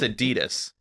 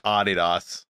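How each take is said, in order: First: The brand name is said the American way. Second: The brand name is said the German way. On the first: The speaker calls it right. "but we're in America. Get with the program. It's Adidas" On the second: The speaker calls it wrong. "It's German"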